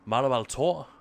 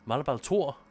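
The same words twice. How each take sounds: Both takes have the same delivery.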